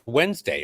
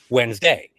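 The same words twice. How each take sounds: First: The stress is on the first syllable. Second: The stress is not on the first syllable. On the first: This is the usual American way to say it. The speaker calls it right. "it's pronounced Wednesday. We accent the first syllable of everything" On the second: This is how fans say it in the chants. The speaker calls it wrong. "people were saying in the chants"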